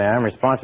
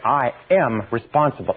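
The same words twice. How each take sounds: First: It is said flatly, without feeling. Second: It is said with strong feeling.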